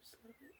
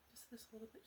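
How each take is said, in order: First: Even softer, almost gone; fading whisper. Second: Soft breathy coax, barely voiced; coaxing whisper. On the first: Acted. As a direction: let it die to a breath. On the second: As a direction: hush them in closer, a little bit. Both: Coaxing the frightened guest.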